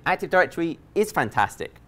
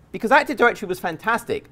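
First: Correcting himself by hitting is; is pressed to fix the tense; stress on IS. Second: Said in the usual way. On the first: Shown as a demonstration. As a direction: lean on the word is, then let fantastic fall.

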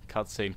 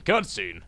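First: Said in the usual way. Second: Emphatic call. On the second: Real, not acted. Player announcing the cutscene to viewers, emphatic call. Repeats the word louder.

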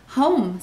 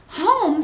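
First: "Home" stated simply, falling; matter-of-fact answer. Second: "Home" pitched high and loud in disbelief; astonished echo. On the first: Amelia Bedelia answering Missus Rogers, "Home" said matter-of-factly. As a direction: give "Home" as a plain fact. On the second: Missus Rogers questioning her housekeeper, "Home" high and astonished. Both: A narrator's reading.

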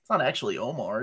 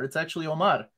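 First: Omar said the usual English way, OH-mar; wrong take of Omar. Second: Omar said the proper way, stress on -MAR; right Omar. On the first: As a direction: Omar as people say it. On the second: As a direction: correct take of Omar. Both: Shown as a demonstration. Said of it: "Nobody pronounces my name right".

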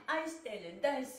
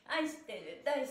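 Both takes have the same delivery.

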